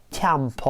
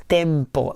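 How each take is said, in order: First: TEMPO with twisted, opened vowels, like "tyam-paw"; cursive pronunciation. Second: Said in the usual way. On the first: Retold or imitated. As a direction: say TEMPO cursive-style, E bent toward A. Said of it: "she rather says something like tempo". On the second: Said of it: "does not pronounce tempo like this".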